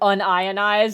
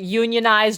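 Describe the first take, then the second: First: It is said as un plus ionized. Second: It is said as union plus ized. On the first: It means not ionized. "or a chemist?" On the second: It means organized into a labor union. "are you talking to a plumber"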